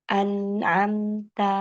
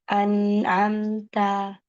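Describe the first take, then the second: The two takes are said the same way.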